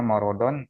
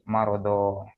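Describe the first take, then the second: First: The word ends with an n sound. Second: The word ends with a lengthened vowel, no n. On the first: The reading continues without stopping. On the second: The reader stops at the end of the verse.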